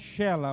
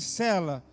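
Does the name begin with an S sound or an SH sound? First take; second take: SH; S. First: The name begins with an SH sound. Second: The name begins with a plain S sound. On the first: The speaker calls it right. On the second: The speaker calls it wrong.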